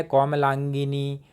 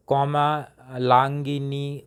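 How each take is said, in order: First: Said in the usual way. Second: कोमलांगिनी drawn out syllable by syllable; spelled out slowly. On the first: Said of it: "यहाँ पर लिखा है". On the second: Shown as a demonstration. Teacher to students, reading the word out very slowly. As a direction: read कोमलांगिनी very slowly, sound by sound. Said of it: "देखिएगा कि यहाँ पर लिखा है".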